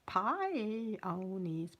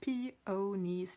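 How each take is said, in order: First: The first syllable sounds like 'pie'. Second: The first syllable sounds like 'pee'. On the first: The speaker calls it wrong. "not pionies" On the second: The speaker calls it right. "Peonies, not pionies"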